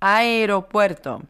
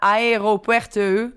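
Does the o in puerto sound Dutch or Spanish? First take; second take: Spanish; Dutch. First: The o in puerto is short and Spanish. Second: The o in puerto sounds like a Dutch o. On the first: The speaker calls it right. "die klinkers die blijven altijd kort" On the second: The speaker calls it wrong. "het is dus geen aeropuerto. Puerto met de Nederlandse O"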